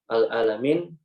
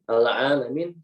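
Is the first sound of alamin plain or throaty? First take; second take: plain; throaty. First: The a starts with a plain glottal catch. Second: The a starts with a tight throaty sound. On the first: It means all destruction. "al-alamin segala kehancuran" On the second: It means all the worlds. "al-alamin segala alam"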